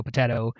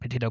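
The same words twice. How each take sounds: First: "potato" with "ah" in the middle; potato, second variant. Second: "potato" with "ay" in the middle; potato, first variant. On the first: Shrugging off how it is pronounced, "potato" said po-TAH-to. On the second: Shrugging off how it is pronounced, "potato" said po-TAY-to. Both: Shown as a demonstration. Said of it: "however you wanna pronounce it".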